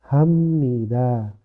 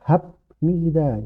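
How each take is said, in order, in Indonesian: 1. Bunyi m ada sebelum n. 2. Bunyi b ada sebelum n.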